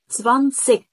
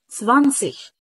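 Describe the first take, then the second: First: The word ends in a hard clicking stop sound. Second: The word ends in a soft hissing ish sound. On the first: "سمع صوت التكة؟" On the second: "يبقى الاي جي كانها ايش الخفيفه"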